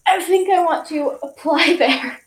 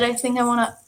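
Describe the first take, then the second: First: Giggling through the quote; laughing. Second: Said in the usual way. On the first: Retold or imitated. Telling viewers what she said, laughing. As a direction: laugh while retelling it.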